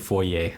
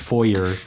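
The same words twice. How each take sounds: First: The word is said in a non-American way. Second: The word is said in an American way. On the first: "in other parts of the English-speaking world, they would say foyer" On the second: "the very American way of saying it is foyer"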